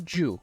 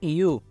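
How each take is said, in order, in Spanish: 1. El primer sonido es fuerte, como la 'y' en español. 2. El primer sonido es suave, como 'ee'. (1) "no you"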